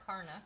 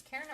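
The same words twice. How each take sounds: First: "Karna" said KAR-nuh, with an AH; first pronunciation. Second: "Karna" said KAIR-nuh, with an EH; alternative pronunciation. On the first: Mom unsure of a viewer's name, "Karna" as KAR-nuh. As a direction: make "Karna" start like "car". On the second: Mom unsure of a viewer's name, "Karna" as KAIR-nuh. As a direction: make "Karna" start like "care". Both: Shown as a demonstration. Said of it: "I'm not sure if it's".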